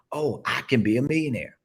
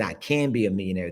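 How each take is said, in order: First: Higher, with "Oh" opening "Oh, I can be a millionaire" as a discovery; a dawning, raised "Oh, I can be a millionaire"; convinced realization. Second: Said in the usual way. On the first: Shown as a demonstration. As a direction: say "Oh, I can be a millionaire" like it just dawned on you. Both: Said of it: "You see how I just changed it?".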